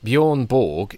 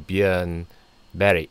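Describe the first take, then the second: First: The name ends with a hard G sound. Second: The name ends with a soft y-like glide. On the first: The speaker calls it wrong. "you don't say Berg like we do with a hard G" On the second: The speaker calls it right. "You say Berry"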